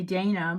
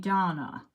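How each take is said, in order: First: The first vowel is not a long 'ah'. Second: The first vowel is a long 'ah'. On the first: "they don't say Dana" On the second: "that's how British say Dana, that long A"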